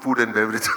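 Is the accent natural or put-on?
natural. It is said in a natural accent. The speaker is being himself. The speaker calls it right. "Speak naturally"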